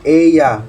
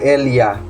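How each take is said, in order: First: The double L sounds like a Y. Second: The double L sounds like an L. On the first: The speaker calls it right. "but ella. So doble ella or doble L is pronounced as Y" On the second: The speaker calls it wrong.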